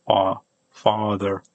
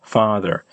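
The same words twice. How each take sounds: First: Father with the first vowel rounded towards "aw"; British-style "aw" vowel. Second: Father with an open "ah" and final r; American English father. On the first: Trying an unpractised British accent for learners, aw-like father. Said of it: "pronounce it a bit closer to aw". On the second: Showing learners their own American father, American pronunciation. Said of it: "in American English, I say father". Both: Shown as a demonstration.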